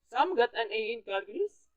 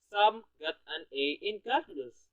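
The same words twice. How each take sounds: First: The pitch rises on calculus, like a question. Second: The pitch is high throughout, like an exclamation.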